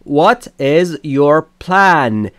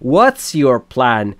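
First: The word is is said in full. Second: The word is is shortened to an s sound.

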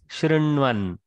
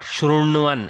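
First: The r is a soft, subtle vowel sound. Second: The r is a full consonant sound. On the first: The speaker calls it right. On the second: The speaker calls it wrong. "is not Shrunvan"

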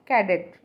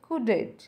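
First: The first vowel sounds like 'cat'. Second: The first vowel sounds like 'cut'. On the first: The speaker calls it wrong. "हम इसे बोलते हैं कैडेट" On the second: The speaker calls it right. "इसका सही pronunciation होता है कुडेट"

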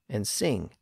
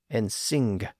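The two takes are said the same way.

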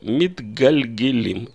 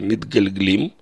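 First: An e vowel is heard between g and l. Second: No vowel is heard between g and l. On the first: The speaker calls it right. "читаю «митгальгелим»" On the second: The speaker calls it wrong. "Я не пытаюсь произнести «митгальглим»"

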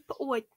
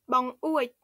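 First: The word is said as one merged syllable. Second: The word is said with two syllables. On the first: This is the casual, familiar form. "Familièrement, on dit pouet" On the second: This is the standard everyday form. "couramment, on dit bang ouet"

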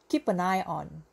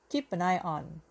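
No difference in how they are said.

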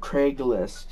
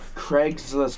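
First: No s sound follows Craig. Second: An s sound follows Craig. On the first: The speaker calls it wrong. "not Craigslist" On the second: The speaker calls it right.

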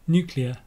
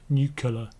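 First: The word follows the sound of nucleus. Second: The word does not follow the sound of nucleus. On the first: The speaker calls it right. "Nuclear, as in nucleus" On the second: The speaker calls it wrong. "not nuclear"

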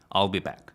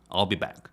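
Both takes have the same delivery.

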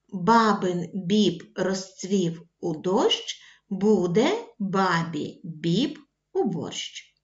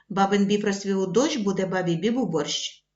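First: The tongue twister is said slowly. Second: The tongue twister is said fast. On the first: "Ми прочитали цю скоромовку повільно" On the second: "кожного разу пришвидшуючи темп"

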